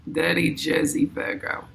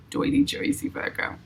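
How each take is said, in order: First: Said in the usual way. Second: Put-on higher, whispered New York accent, playful; mock New York accent under her breath. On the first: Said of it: "I don't know if I'm saying it right". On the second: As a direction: try the New York accent on dirty Jersey. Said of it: "I got the New York accent".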